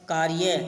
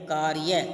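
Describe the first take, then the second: Both takes have the same delivery.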